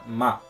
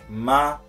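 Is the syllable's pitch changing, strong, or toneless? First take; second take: toneless; strong. First: It is said with no particular tone. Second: It is said a little more strongly. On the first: "Ma não tem tom nenhum" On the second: "um ma um pouco mais forte"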